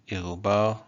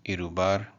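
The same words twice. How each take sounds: First: "irubar" with R's in the throat; French-style R's. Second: "irubar" with light tongue-tip R's; tapped R's. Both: Shown as a demonstration. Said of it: "how you want to pronounce your R's".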